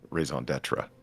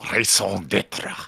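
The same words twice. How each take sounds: First: It is said with an anglicized, English-style pronunciation. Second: It is said with a strong, authentic French pronunciation. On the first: This is the ordinary way most people say it. "most people just say raison d'être like that" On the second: The speaker is showing off a bit. "He would always like just get real French with it"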